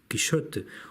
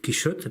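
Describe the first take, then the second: First: The name is said with English pronunciation. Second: The name is said with French pronunciation. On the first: "en inglés" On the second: "en francés"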